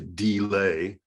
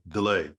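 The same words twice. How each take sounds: First: The first vowel is said as a full vowel. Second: The first vowel is reduced to a half vowel. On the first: The speaker calls it wrong. "we don't say delay" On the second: The speaker calls it right. "like a little speed bump... a little half vowel"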